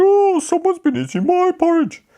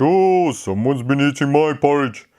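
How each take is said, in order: First: High Mummy Bear voice; a surprised mother bear, pitched up high. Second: Said in the usual way. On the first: Acted. Mummy Bear's line.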